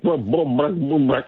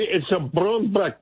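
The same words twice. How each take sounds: First: Said in the usual way. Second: Put-on Scottish accent. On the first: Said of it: "she could say". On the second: Caller imitating her Scottish worker's phrase, slow light Scottish accent. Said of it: "a Scottish worker here ... she could say".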